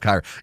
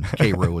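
First: It is pronounced the usual standard way. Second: It is pronounced the local South Georgia way. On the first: It names the Egyptian city. "instead of" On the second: It names the Georgia town. "pronounce all the names of the cities in South Georgia"

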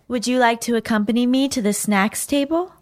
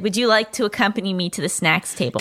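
First: It is acted out in a character voice. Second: It is said plainly, as narration.

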